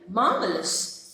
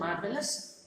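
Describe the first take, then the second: First: It is said with strong emphasis. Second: It is said plainly, without extra force.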